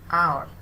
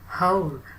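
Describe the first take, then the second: First: The word begins with a vowel sound. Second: The word begins with an h sound. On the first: The speaker calls it right. "That's why it is considered as the vowel sound" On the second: The speaker calls it wrong. "hour is not whole"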